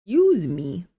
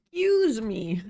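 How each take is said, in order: First: Hiccuping. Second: Second hiccup, apologizing again; polite excuse me after hiccuping. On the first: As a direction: excuse me after a hiccup. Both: Real, not acted. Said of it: "The hiccups".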